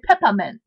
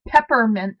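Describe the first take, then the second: First: The R sound in the word is dropped. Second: The R sound in the word is pronounced. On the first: "up here, you'd say peppermint" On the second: "instead of saying peppermint"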